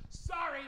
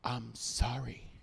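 First: High, curt, grudging "Sorry."; a kid's grudging one-word "Sorry."; sulky kid's sorry. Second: Soft, slow, low "I'm sorry."; a kid's soft, slow apology; nicer sorry. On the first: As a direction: toss off "Sorry." like a resentful kid. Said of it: "you can't yell, "I'm sorry," like that". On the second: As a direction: say "I'm sorry." gently and sincerely. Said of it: "tell him in a nicer voice". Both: Retold or imitated.

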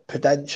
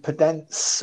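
First: Podence said the other possible way; alternative try at Podence. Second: Podence said with a hissed s ending; first try at Podence. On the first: Pundit unsure of a player's name, alternative attempt at Podence. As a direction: offer Podence as a second guess at the name. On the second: Pundit unsure of a player's name, first attempt at Podence. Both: Shown as a demonstration. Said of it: "however you say it".

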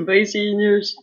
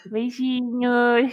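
First: Slow with a giggle; cute giggly voice. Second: Slow, sweet drawn-out goodbye; cute voice. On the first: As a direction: giggle the goodbye sweetly. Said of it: "despedir com uma voz fofinha". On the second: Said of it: "faz a tua voz mais fofinha". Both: Pretend.

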